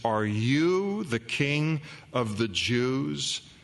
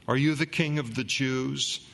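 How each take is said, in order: First: The word you is strongly stressed. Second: It is read without special stress on you.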